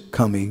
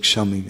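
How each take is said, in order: First: The word begins with a k sound. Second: The word begins with an sh sound. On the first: "I'm kind of doing this in Bengali Oriya pronunciation" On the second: "In Hindi ... you'd say shami"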